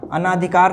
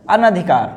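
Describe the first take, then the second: First: अनाधिकार with long naa; wrong form. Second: अनधिकार with short na, an-adhikar; no long aa after न in अनधिकार; correct form. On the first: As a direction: stretch ना in अनाधिकार. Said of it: "अनाधिकार नहीं". (अनाधिकार में ना लंबा) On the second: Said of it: "मात्रा नहीं लगेगी". (अनधिकार में न छोटा, बिना मात्रा) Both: Shown as a demonstration.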